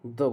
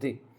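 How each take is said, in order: First: The word ends in a short 'uh' vowel. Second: The word ends in a pressed 'ee' vowel. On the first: The next word starts with a consonant sound. "Consonant sound होगी तो हम तेको क्या बोलेंगे, द बोलेंगे only" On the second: The next word starts with a vowel sound. "छोटी की मात्रा होती है दी, थोड़ा सा प्रेस लगाएंगे हम दी"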